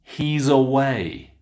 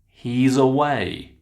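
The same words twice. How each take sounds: First: The final sound runs into the next word. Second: The same.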